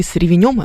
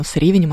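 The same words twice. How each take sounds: First: "ревенём" stressed on the final -нём; stress on last syllable. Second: "ревенем" stressed on the opening ре-; stress on first syllable. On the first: Host recalling her friend's pie announcement, "ревенём" with end stress. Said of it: "по-моему, с ревенем, она даже так сказала". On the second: Host correcting her memory of a friend's wording, "ревенем" with first-syllable stress. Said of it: "она даже так сказала как-то". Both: Retold or imitated.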